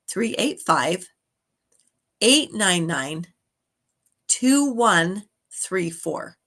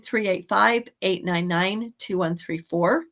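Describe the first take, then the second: First: The number is said at a slower pace. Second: The number is said at a quicker pace.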